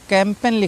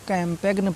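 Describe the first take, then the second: First: The g is silent in this word. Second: The g is sounded in this word. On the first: The speaker calls it right. "कैंपेन लिखा हुआ है" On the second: The speaker calls it wrong. "बहुत से बच्चे इसको कैंपेग्न पढ़ते हैं"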